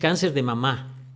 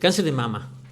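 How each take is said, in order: First: The last word is stressed on its last syllable. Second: The last word is stressed on its first syllable. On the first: It refers to the mother. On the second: It refers to the breast.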